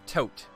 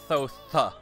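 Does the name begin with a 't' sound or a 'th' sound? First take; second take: t; th. First: The name begins with a plain 't' sound. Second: The name begins with a 'th' sound. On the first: "Maybe it's Tote" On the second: "It's not TH sound"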